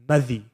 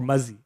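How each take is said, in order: First: The middle consonant is a 'th' sound. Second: The middle consonant is a 'z' sound.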